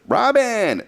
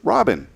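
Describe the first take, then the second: First: The name is called out in a demanding way. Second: The name is said in a relaxed, casual way. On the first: The caller wants something done. "that meant she wanted something" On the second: The caller just wants to say hello. "that meant she just wanted to say hello"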